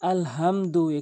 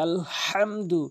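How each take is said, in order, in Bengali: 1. h হলো হালকা, শ্বাসযুক্ত একটি ধ্বনি। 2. h গলার গভীর থেকে চাপ দিয়ে বলা হয়। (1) "বড় হার জায়গায় ছোট হা এনে উচ্চারণ করি" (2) "হাটি হলকের মাঝখান থেকে ভর দিয়ে চাপ দিয়ে"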